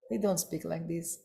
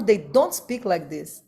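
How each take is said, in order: First: Much softer repeat. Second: Said in the usual way. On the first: Shown as a demonstration. Lecturer repeating his point to the assembly much softer. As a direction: echo it back far softer. Repeated line, second drops away.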